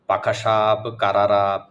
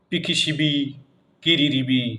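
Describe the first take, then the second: First: Every vowel is replaced with an a sound. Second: Every vowel is replaced with an i sound. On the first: "আকার দিয়ে" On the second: "রস্যিকার দিয়ে"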